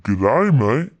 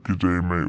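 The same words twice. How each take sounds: First: Mock Australian greeting, lifting at the end; bad Australian accent. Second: Said in the usual way. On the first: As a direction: imitate Australians with a rising lilt. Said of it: "doing a bad Australian accent".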